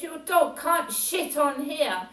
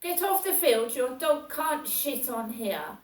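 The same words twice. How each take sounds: First: Louder, higher retold order; mock yell. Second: Higher, louder barked order; mock yell. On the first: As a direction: bark the rule at her. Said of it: "He said". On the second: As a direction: order her off the field. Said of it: "he goes".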